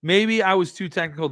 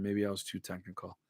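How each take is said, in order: First: Said in the usual way. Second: Much softer, muttered to himself; quiet mutter. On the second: Real, not acted. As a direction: mumble it under your breath. Repeats own remark, second time muttered.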